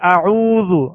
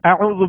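First: The long vowel is held for two beats. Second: The long vowel is cut short. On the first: The speaker calls it right. "یعنی دو حرکت کے برابر اسے کھینچ کر ادا کریں گے" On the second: The speaker calls it wrong. "اعوذ باللہ نہیں پڑھیں گے"

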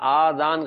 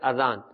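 First: The first vowel is drawn out long. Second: The first vowel is kept short. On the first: The speaker calls it wrong. "تو یہ آذان غلط ہے" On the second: The speaker calls it right. "الف کے اوپر کھڑا زبر نہیں ہے بلکہ صرف زبر ہے"

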